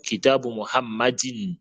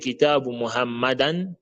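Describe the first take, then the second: First: The second word ends in -in. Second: The second word ends in -an. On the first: The speaker calls it right. "mais on dit" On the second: The speaker calls it wrong. "on ne dit pas"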